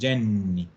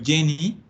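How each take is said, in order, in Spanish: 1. El sonido n del medio es largo. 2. El sonido n del medio es corto. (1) "en italiano le dicen Jenny, con doble N" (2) "que nosotros le decimos Jenny"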